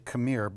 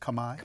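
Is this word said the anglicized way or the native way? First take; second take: anglicized; native. First: It is said with a familiar English pronunciation. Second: It is said with the native Khmer pronunciation. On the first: This is how English speakers usually say it. "we would say Khmer" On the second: This is the proper pronunciation. "but the pr pronunciation, as I understand it, is Khmer?"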